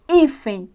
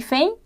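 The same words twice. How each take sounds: First: The stress falls on the second-to-last syllable. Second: The stress falls on the final syllable. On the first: The speaker calls it right. "é hífen" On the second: The speaker calls it wrong. "Não é hífen"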